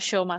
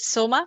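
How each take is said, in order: First: The name begins with an sh sound. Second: The name begins with a plain s sound. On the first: "some Shoma" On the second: "some s- I mean pronounce it Soma"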